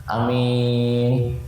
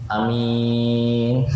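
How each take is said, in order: Both takes have the same delivery.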